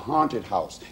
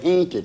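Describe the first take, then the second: First: It is said in a Northern accent. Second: It is said in an Appalachian accent.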